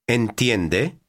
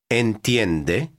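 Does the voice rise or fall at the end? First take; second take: rise; rise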